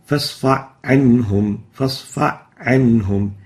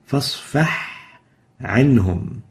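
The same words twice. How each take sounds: First: فاصفح عنهم with the ha dropped, fa straight into ayn; ha merged into ayn. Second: فاصفح ends in a clear ha, a pause, then عنهم; clear separate ha. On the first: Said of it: "and that's wrong". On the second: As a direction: keep the ha of فاصفح before عنهم. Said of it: "pronounce it clearly". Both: Shown as a demonstration.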